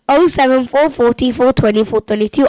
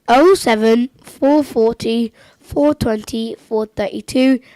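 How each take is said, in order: First: The number is said at a faster pace. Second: The number is said at a slower pace.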